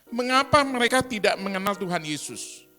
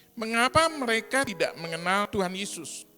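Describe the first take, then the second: No difference in how they are said.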